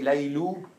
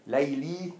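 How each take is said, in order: First: The name ends with an 'oo' vowel. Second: The name ends with an 'ee' vowel.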